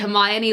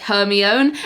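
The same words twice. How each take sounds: First: The name is said the standard, accepted way. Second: The name is misread from its spelling. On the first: The speaker calls it right. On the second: The speaker calls it wrong.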